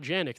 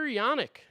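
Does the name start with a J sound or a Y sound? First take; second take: J sound; Y sound. First: The name starts with a J sound. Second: The name starts with a Y sound. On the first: The speaker calls it wrong. "not Janik" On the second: The speaker calls it right. "I guess that's how you pronounce it"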